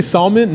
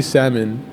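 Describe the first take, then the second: First: "salmon" with a sounded l, SAHL-mun; "salmon" as SAHL-mun, higher pitched; L pronounced. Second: "salmon" with silent l, SAM-un; "salmon" with no l sound. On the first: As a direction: try "salmon" with the L spoken. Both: Shown as a demonstration. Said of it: "No, I say salmon".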